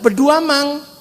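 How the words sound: The name is said the Bugis way, Beduamang.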